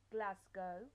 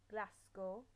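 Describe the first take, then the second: First: Said in the usual way. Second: Glasgow said the Gaelic way, hard k in the middle. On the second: Shown as a demonstration. Teacher giving the Gaelic name, Glasgow said in Gaelic. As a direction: say Glasgow as a Gaelic speaker would, Glasco.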